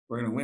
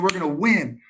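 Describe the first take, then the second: First: It sounds flat and unconvinced. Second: It sounds strong and confident. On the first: The team does not believe they can win. The speaker calls it wrong. "no, I want you to say it like you believe it" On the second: The team truly believes they can win. The speaker calls it right. "say it like you believe it"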